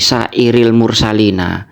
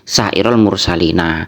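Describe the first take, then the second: First: The first word ends with an 'i' vowel. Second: The first word ends with an 'a' vowel. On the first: The word is treated as a genitive noun. The speaker calls it wrong. "kok dibaca jer ini" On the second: The word is treated as a direct object. The speaker calls it right. "Mestinya ... dibaca nasab"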